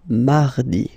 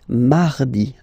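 The two takes are said the same way.

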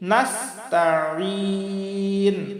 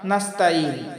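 First: The middle consonant is a pressed throat ain. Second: The middle consonant is a light glottal stop. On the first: The speaker calls it right. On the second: The speaker calls it wrong.

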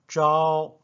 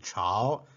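First: The word begins with an unaspirated 'j'-like sound. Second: The word begins with an aspirated 'ch' sound. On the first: It means morning. "Zhao means morning" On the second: It means towards or dynasty. "This character has another pronunciation"

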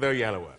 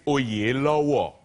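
First: The name is pronounced the anglicized Western way. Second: The name is pronounced the original Nigerian way. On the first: This is the pronunciation used in Europe and America. "Let's stick with Oyelowo" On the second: This is the pronunciation used at home. "it's actually Oyelowo is how you say it"

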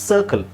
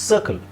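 Both takes have the same delivery.

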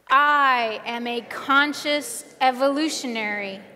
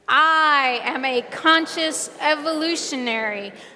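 First: It is said with ordinary, modest energy. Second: It is said with more gusto and energy.

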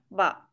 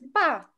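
First: The pitch dips low and then rises. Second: The pitch falls sharply from high to low. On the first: "Третий тон" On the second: "Вот так резче вниз"

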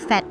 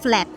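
First: The L sound after the F is missing. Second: A clear L sound follows the F. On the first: The speaker calls it wrong. "สำเนียงไทยไปเลย ... flat ตัว L ขาดไป" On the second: The speaker calls it right. "ลองมาเพิ่มตัว L กันดูนะคะตรง flat"

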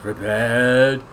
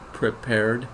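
First: The word is drawn out and slurred together. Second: The word is said as two neat syllables. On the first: "He says prepared" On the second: "where there'd be two neat syllables"

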